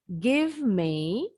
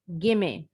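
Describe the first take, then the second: First: Both words are said fully and separately. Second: The words are blended into one reduced word.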